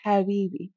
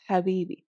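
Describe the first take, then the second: First: Habibi with a hard, rasped, creepy ha; creepy strong ha. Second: Habibi with a milder, less rasped ha; softened ha. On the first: Teacher showing the exaggerated creepy way to say Habibi. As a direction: hiss the ha of Habibi like a snake-talker. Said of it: "do it very strong at the beginning, sort of in a very creepy". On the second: Teacher showing the softened version after the creepy one. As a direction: ease off the ha of Habibi. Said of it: "and then soften it". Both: Shown as a demonstration.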